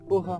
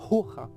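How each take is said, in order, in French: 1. Le mot commence directement par le son de la voyelle. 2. Le mot commence par un son h audible. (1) "on ne prononce plus ce H" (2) "on dit pas hoja"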